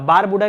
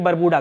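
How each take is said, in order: First: The first vowel is long, 'baar'. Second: The first vowel is short, 'bar'. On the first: The speaker calls it wrong. "बारबूडा नहीं" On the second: The speaker calls it right. "बरबूडा करिएगा"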